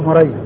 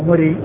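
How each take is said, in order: First: The name is said in its diminutive form. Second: The name is said in its relational form. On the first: "إذا كان بالتصغير فهو مري" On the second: "وإذا النسب يعني مري"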